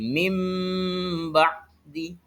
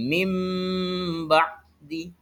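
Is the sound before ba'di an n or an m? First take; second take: m; m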